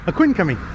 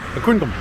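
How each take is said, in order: First: The final 'cum' syllable is fully pronounced. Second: The final 'cum' syllable is barely pronounced. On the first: "You know I'm butchering it" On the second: "he kind of almost didn't pronounce the cum part"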